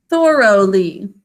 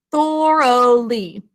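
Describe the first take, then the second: First: Thoroughly said slowly and louder, syllables marked; spelling voice. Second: Thoroughly stretched slowly, syllable by syllable; spelling voice. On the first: Teacher checking the spelling of Thoroughly, slow and clear. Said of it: "syllable break". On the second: Teacher sounding out Thoroughly slowly for the spellers. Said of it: "We're going to think to spell thoroughly". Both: Shown as a demonstration.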